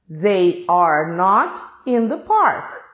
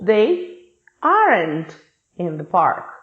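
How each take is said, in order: First: The words 'are not' are said in full. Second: The words 'are not' are contracted to 'aren't'.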